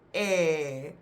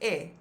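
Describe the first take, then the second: First: The vowel sound is stretched out longer. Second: The vowel sound is short. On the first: "if the kappie is on top of the letter, it becomes E" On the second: "the letter's pronunciation without the kappie"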